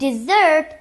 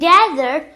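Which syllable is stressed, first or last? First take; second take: last; first. First: The stress is on the last syllable. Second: The stress is on the first syllable. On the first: A sweet course eaten after a meal. "we stress the last syllable" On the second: A dry area of land with sand. "we stress the first syllable"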